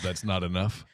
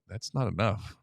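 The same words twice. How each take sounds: First: It is yelled with excitement. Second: It is said with disappointment.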